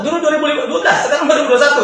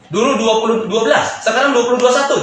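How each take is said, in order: First: Quoting the Korean higher and faster, laughing through it; mocking the boastful Korean. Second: Said in the usual way. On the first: To his listener, mimicking the Korean partner's new boldness, high and quick with a laugh. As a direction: bounce it up, fast and amused. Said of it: "sekarang udah nggak takut". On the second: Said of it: "dia bilang".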